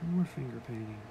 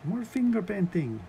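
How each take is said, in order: First: It is said in the speaker's normal accent. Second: It is said in a mock Swedish accent.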